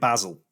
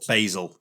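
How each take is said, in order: First: It is said in a British accent. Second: It is said in an American accent.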